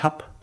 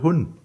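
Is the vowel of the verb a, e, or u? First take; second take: a; u. First: The verb is said with an a vowel. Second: The verb is said with a u vowel. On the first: This is the front Palatinate form. "wenn Sie in die Vorderpfalz gehen, dann sagen die ich hab" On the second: This is the northern Palatinate form. "gehen in die Nordpfalz, ja, dann sagen die Leute hun"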